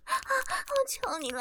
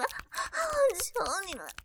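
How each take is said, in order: First: Slow, higher, drawn-out plea; begging. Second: Slow, fading plea at her usual pitch; begging. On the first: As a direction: stretch the plea out, pitched up. (拖长声调的哀求) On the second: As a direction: let the plea sink and trail off. (低落拖长的哀求) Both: Acted. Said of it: "放过我".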